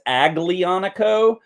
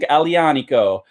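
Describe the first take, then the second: First: The G is pronounced as a hard G. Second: The G is pronounced like a Y. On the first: The speaker calls it wrong. "a lot of people want to call this" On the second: The speaker calls it right. "that G is a soft G when you pronounce it. So it's more like a Y"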